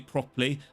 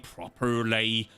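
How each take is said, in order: First: The R sound is weak, standard English style. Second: The R sound is strongly pronounced, West Country style. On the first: This is how the speaker does not say it. "I don't say properly" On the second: This is how the speaker's local accent says it. "I say properly"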